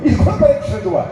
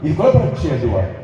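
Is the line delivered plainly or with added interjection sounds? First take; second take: interjections; plainly. First: It is delivered theatrically, with added interjection sounds. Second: It is delivered plainly, without added interjection sounds.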